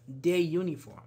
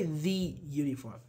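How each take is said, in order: First: "The" as "deh" before uniform; careful "The", then uniform with a y sound; teacher's model of "The uniform"; demonstrated article. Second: "the" said clearly before uniform; careful teacher's "the uniform"; demonstrated article. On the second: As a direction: set "the" apart before the y sound of uniform. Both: Shown as a demonstration. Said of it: "The same goes with uniform".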